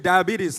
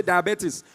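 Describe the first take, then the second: First: Said in the usual way. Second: "diabetes" said the Nigerian way; Nigerian pronunciation. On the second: Shown as a demonstration. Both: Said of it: "In Nigeria, we say diabetes".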